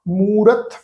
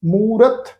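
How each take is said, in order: No difference in how they are said.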